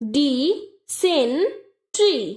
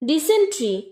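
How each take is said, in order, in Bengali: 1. শব্দটি আলাদা আলাদা সিলেবলে ভাঙা হয়েছে। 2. শব্দটি একটি একক হিসেবে সাবলীলভাবে বলা হয়েছে।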